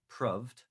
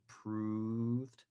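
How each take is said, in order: First: The vowel is short, like in 'love'. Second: The vowel is long, like in 'move'. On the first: "or a shorter vowel sound" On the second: "with a long vowel sound"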